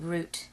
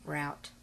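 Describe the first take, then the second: First: "route" said like "root"; careful "route", rhyming with boot; fancy pronunciation. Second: Said in the usual way. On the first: Real, not acted. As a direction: say "route" with an oo vowel. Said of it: "I'm not fancy here". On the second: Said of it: "talk like I normally do".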